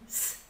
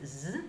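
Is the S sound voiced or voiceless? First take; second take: voiceless; voiced. First: The S sound is voiceless, a sharp hiss. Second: The S sound is voiced, buzzing like a z. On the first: The speaker calls it right. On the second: The speaker calls it wrong. "sagen wir auch nicht S"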